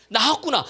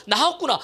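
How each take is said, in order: Both takes have the same delivery.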